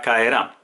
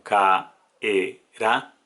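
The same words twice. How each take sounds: First: Said in the usual way. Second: Caerá said slowly as ca-e-rá, stress on rá; syllables split apart. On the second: Shown as a demonstration. Teacher demonstrating a simple hiatus to students, slow and split. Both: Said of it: "se separaría como caerá".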